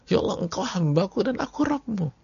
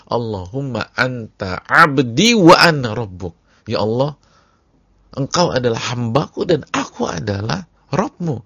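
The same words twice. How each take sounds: First: High, thin excited quote; joyful slip. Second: Ecstatic cry. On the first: Preacher re-quoting the man's joyful slip, high and giddy. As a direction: blurt it out giddy with joy. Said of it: "udah keceplosan". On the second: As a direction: shout the prayer in overwhelming joy. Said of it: "sambil mengucapkan". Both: Retold or imitated.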